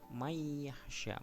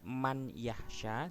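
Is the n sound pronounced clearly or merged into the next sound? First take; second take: merged; clear. First: The n merges into a nasalized doubled y. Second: The n is pronounced separately before the y. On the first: The speaker calls it right. "karena dia idgham lebur" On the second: The speaker calls it wrong. "bukan man yahsya, salah itu"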